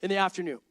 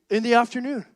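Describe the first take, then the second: First: Said in the usual way. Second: Louder disbelieving repeat; incredulous echo. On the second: Retold or imitated. Speaker repeats his friend's answer, incredulous.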